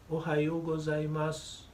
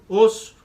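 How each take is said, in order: First: The greeting is said in full with every syllable. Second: The greeting is clipped to two short syllables. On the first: A complete, polite greeting. The speaker calls it right. "Diga bom dia completo" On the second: A sleepy, casual greeting. The speaker calls it wrong. "É uma contração, é o o do Ohayou gozaimasu e o su do gozaimasu"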